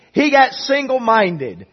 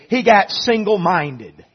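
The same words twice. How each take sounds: First: "got" pushed up high and loud, slow; slow, emphatic repeat stressing "got"; higher stress on got. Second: "got" leaned on, slow; slow emphatic "got"; stress on got. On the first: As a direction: lift "got" in "He got single-minded" higher. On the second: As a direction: hit "got" in "he got single-minded" slowly. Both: Shown as a demonstration.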